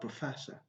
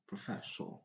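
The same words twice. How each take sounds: First: The final syllable is reduced to a schwa. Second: The final syllable has a full vowel. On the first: The speaker calls it right. "but professor, doctor, using sure" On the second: The speaker calls it wrong. "Never say professor"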